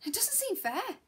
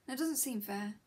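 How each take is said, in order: First: High, rising, pleading "It doesn't seem fair". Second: Said in the usual way. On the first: Acted. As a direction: lift the whole line high and let it rise at the end. Outburst, then repeated quietly.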